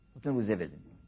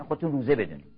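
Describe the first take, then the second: First: Soft echo. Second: Said in the usual way. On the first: Real, not acted. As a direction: repeat it softer and lower, like an echo to yourself. Repeats the line softly as an echo. (تکرار آرام و نجواگونه)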